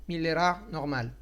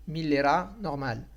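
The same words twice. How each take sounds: The two takes are said the same way.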